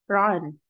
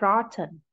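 First: The T is a glottal stop. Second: The T is a clear, released T.

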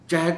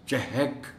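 First: No vowel follows the h sound. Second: A short a vowel follows the h sound. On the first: The speaker calls it wrong. "चहक नहीं" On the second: The speaker calls it right. "हे पर ज़बर है और उसका ख्याल रखा जाना चाहिए।"

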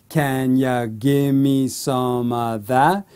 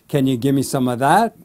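First: The question is spoken at medium speed. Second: The question is spoken fast.

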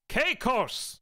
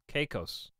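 First: It is said loudly, almost shouted. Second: It is said at normal volume.

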